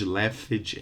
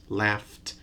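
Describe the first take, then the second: First: The ending adds an extra vowel syllable. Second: The ending is a bare t sound. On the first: The speaker calls it wrong. "add an extra syllable" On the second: The speaker calls it right. "No extra vowel, no extra syllable"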